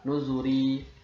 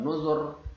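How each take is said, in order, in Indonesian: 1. Kata ini berakhir dengan vokal i pendek. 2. Kata ini berakhir dengan konsonan r. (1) "Aslinya nuzuri" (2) "Kalau kita wakaf maka dibaca ini tipis lebih diutamakan"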